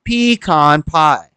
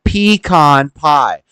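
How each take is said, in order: First: The stress in pecan is on the first syllable. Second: The stress in pecan is on the first syllable.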